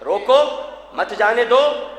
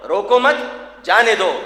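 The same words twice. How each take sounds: First: "روکو" set apart, then "مت جانے دو" together; stop after روکو. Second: "روکو مت" together, then a pause before "جانے دو"; stop after مت. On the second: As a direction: join "مت" to "روکو", break, then drop lower on "جانے دو". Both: Shown as a demonstration. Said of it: "دو انداز سے ہے".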